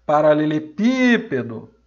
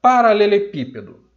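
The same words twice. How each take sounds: First: Paralelepípedo slowed, PÍ stretched and loud; stress on tônica. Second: Paralelepípedo higher and loud from the first syllable; announced example word. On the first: Teacher pronouncing the whole word to find its stress, long loud PÍ. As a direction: say Paralelepípedo whole, leaning hard on PÍ. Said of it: "eu vou pronunciar a palavra toda". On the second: Teacher introducing the next word, Paralelepípedo loud and raised. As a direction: call out Paralelepípedo as a new example. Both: Shown as a demonstration.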